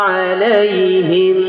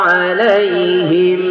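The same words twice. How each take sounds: Both takes have the same delivery.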